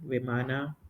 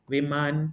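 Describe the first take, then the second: First: The word ends with a full final a vowel. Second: The word ends on a consonant, vowel cut short. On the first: This is the Kannada form. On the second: This is the Hindi form.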